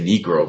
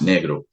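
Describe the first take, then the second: First: The word is said with English sounds. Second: The word is said with Portuguese sounds. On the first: "what Americans would say Negro" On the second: "in Portuguese it's pronounced negro"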